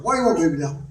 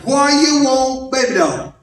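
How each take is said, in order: First: Put-on "Why you want, baby doll" in one quick low run; "Why you want, baby doll" low, with no gaps; words run together. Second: Put-on "Why you want" stretched slowly, then "baby doll" dropping; slowed demonstration. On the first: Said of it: "I run mine together". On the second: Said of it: "Did you hear that?". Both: Shown as a demonstration.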